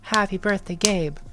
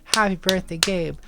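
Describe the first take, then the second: No difference in how they are said.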